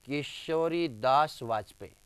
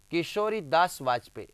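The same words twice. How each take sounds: First: Name spaced out word by word; slow dictation. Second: Said in the usual way. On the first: Shown as a demonstration. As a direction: draw the name out slowly for the class. Teacher dictates name slowly, then repeats.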